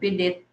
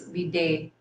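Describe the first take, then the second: First: The word ends with a 'dit' sound. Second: The word ends with a 'day' sound. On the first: The speaker calls it wrong. "I thought it's just be did" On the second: The speaker calls it right. "the correct pronunciation"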